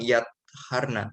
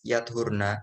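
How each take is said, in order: First: The t and h sounds are doubled, held longer. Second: The t and h sounds are single, not doubled. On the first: "bertasdid huruf to dan h" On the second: "dengan bacaan takfif yakni yakni disukun huruf to"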